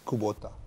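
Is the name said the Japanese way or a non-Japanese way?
Japanese. The name is said with a native Japanese pronunciation. This is how Japanese people say the name. "and Japanese people, it's Kubota"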